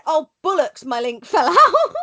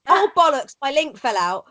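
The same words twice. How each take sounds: First: "bullocks" with the vowel of bull; "bullocks", first syllable rhyming with pull; mispronounced bollocks. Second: "bollocks" with an open o as in doll; "bollocks", short o in the first syllable; intended bollocks. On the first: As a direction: mimic the botched "bullocks", voice lifting higher. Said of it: "he actually said". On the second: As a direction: quote it with "bollocks" said correctly. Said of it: "But then he actually said". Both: Retold or imitated.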